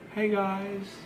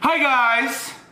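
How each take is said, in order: First: The greeting is said quietly and low. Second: The greeting is said loudly.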